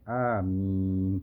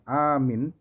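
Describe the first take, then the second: First: The vowel is long and said lightly. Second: The vowel is short and said abruptly. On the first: The speaker calls it right. "panjang dan ringan, jangan dikagetkan" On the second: The speaker calls it wrong. "bukan amin"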